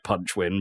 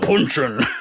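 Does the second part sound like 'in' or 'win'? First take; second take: win; in. First: The second part is said as a clear 'win'. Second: The second part is said as a short 'in'. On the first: This is the intended name. The speaker calls it right. "I think it's supposed to sound like punch win because it's penguin" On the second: This is how the title screen says it. The speaker calls it wrong. "it sounds more like punchin on the title screen"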